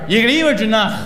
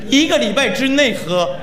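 First: The phrase is said at normal speed. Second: The phrase is said slowly and deliberately. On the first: "说慢点" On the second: "再慢点"

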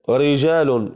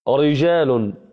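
The two takes are said the same way.

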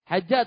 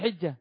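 First: The first vowel is an open 'a' sound. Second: The first vowel is a front 'i' sound. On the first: "Hajjah atau hijjah?" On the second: "Dzulhijjah dengan ha yang dikasrahkan"

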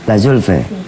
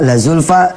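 First: The word ends with a fronted e vowel. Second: The word ends with an open a vowel. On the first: "dibaca La Zulfe" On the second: "Seperti Zulfa"

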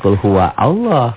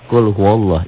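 First: Allah is said separately with its own alif. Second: Allah is linked on without its own alif. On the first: The speaker calls it wrong. "Jangan kul huwa Allah" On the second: The speaker calls it right. "Itu namanya hamzah wasol. Apabila diwasal, disambung, enggak dibaca"

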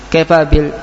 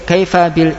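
The two takes are said the same way.

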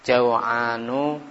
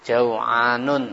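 First: The word ends on a vowel, no final n. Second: The word ends with an added n sound. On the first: The speaker calls it right. "tapi kaslanu, jau'anu" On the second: The speaker calls it wrong. "tidak boleh"

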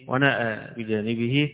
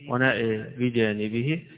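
First: The long a is fully open. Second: The long a leans slightly toward e. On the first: "بالتقليل والفتح والتقليل" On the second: "بالتقليل والفتح والتقليل"

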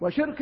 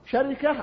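First: It follows the pattern of hikma: shirka. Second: It follows the pattern of namira: sharika. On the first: "وشركة على وزن حكمة" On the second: "شركة على وزن نمرة"

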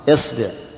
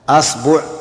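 First: The first vowel is a front 'i'. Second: The first vowel is an open 'a'. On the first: "كسرها" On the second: "فتح الهمزة"

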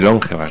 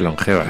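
First: The stress is on the first syllable. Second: The stress is on the second syllable. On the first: The speaker calls it wrong. "no se dice longevas" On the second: The speaker calls it right. "se dice longevas. Es llana que no es esdrújula"

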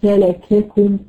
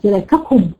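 First: The k sounds are pressed lightly and breathily. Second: The k sounds are pressed hard and tensely. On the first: The speaker calls it right. "بقوه اعتماد ضعيفه ... بشويش كده" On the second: The speaker calls it wrong. "يبقى انت كده شددتي، يبقى انت كده منعت الهمس خالص"

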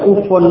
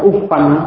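First: The word ends with a u vowel. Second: The word ends with an a vowel. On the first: "Tidak akan dibaca ufun" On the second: "ataukah ufan, tidak akan"

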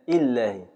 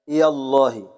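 First: The y sound is dropped entirely. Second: The y sound is followed by an a vowel. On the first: "إسقاط الياء بالكلية" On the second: "فتح الياء"

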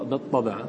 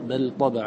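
First: The lam is merged into the following letter. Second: The lam is pronounced clearly before the next letter. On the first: The speaker calls it wrong. "ولا نقرأ بل طبع" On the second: The speaker calls it right. "نحن نقرأ بل طبع الله"

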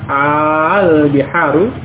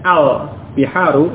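First: The opening vowel of al is long. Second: The opening vowel of al is short. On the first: It asks a question. "Kalau panjang al biharu" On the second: It is a plain definite noun, not a question. "yang asalnya pendek al-biharu itu hanya alif lam"

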